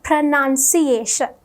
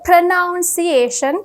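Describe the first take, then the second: First: The word starts with a short 'pronun' sound. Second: The word starts like the verb 'pronounce'. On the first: The speaker calls it right. "the correct way to pronounce it is pronunciation" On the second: The speaker calls it wrong. "ගොඩක් කට්ටිය pronounce කරන්නේ pronunciation කියලා"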